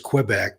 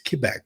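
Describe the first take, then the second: First: It is said the common English way. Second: It is said the way locals say it. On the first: The speaker calls it wrong. "Everybody always says Quebec" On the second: The speaker calls it right. "if you're from there and say it correctly"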